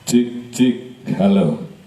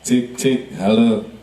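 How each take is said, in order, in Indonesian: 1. Suaranya terdengar lebih penuh dengan lo-nya yang lebih lebar. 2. Suaranya terdengar tipis dengan sedikit lo-nya. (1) "Ayo tambahin satu box... respon frekuensinya makin lebar" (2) "nah ini suara satu box... Nggak ada lo-nya... Tipis"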